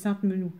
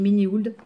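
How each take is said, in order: First: The final letters of the name are silent. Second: Every letter of the name is sounded out. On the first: The speaker calls it right. "mais c'est Sainte-Menou" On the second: The speaker calls it wrong. "je prononce toutes les lettres"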